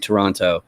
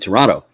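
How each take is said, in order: First: The middle consonant is a clear T sound. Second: The middle consonant sounds like a D. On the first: This is how outsiders say the name. "whenever I'm on the internet, I always say Toronto" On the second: This is how locals say the name. "the T in the middle turns into a D sound"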